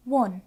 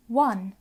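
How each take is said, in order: First: "one" said the northern way, as won; northern England "one"; northern English one. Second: "one" said the southern way, as wun; southern England "one"; southern English one. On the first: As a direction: say "one" to rhyme with gone. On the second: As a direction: say "one" to rhyme with sun. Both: Shown as a demonstration. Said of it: "southern northern divide going on there".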